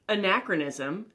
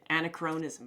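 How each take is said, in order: First: The middle is sounded like 'kruh', as a-NAK-ruh-nism. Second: The middle is sounded like 'Crohn', as Anna-Crohn-ism. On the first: The speaker calls it right. "I know what that word means" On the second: The speaker calls it wrong. "That's how I pronounced it"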